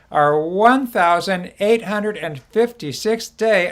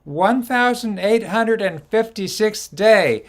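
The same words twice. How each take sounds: First: Higher, slow, leaning on one; repeated day count. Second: Higher, slow and louder, every number stressed; announced day count. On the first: Host repeating the count so viewers join in, slowly. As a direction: say it back slowly and clearly. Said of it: "'cause I have you say it back". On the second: Host to viewers, announcing the day count slowly. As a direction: spell out the count slowly for the audience to repeat. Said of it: "everybody listen carefully". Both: Shown as a demonstration.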